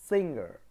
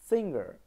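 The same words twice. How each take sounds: The two takes are said the same way.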